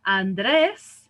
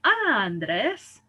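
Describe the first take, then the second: First: "Andrés" with a loud, stressed final DRÉS; an-DRÉS, punching the end of "Andrés"; stress on last syllable. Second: "Andrés" wrongly stressed as AN-dres; slow, drawn-out first syllable in "Andrés"; stress moved to first syllable. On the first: Teacher checks the answer, "Andrés" stressed on the last syllable. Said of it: "It breaks a rule". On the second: Teacher shows the rule-following version, "Andrés" stressed on the first syllable. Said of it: "to follow the rule". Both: Shown as a demonstration.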